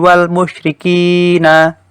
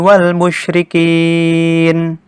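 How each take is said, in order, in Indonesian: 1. Kata terakhir diakhiri dengan bunyi vokal. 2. Kata terakhir diakhiri dengan konsonan mati. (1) "tidak boleh membaca seperti ini" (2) "Yang betul adalah membacanya dengan cara seperti ini"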